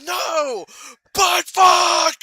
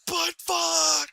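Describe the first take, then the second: First: Much higher, louder outburst; furious shout. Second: Higher mock outburst; mock shout. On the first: Retold or imitated. Dad punching the table in public, furious shout. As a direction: explode on the curse. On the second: Retelling the Twizzlers outburst, mock shout. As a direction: replay the curse, less loud.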